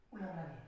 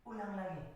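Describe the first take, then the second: No difference in how they are said.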